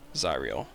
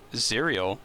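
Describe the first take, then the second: First: The name does not sound like cereal. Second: The name sounds like the word cereal. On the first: The speaker calls it right. "We'll say it like that" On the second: The speaker calls it wrong. "it sounds like cereal"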